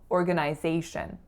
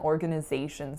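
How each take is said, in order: First: The third syllable has a full 'i' vowel. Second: The third syllable has a reduced schwa vowel. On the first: "In Canada, I grew up saying organization" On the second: "in the States, it's reduced to schwa"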